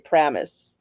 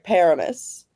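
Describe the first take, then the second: First: The first vowel is dropped entirely. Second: The first vowel is clearly pronounced. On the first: "They don't even pronounce the first A" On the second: "more like Paramus"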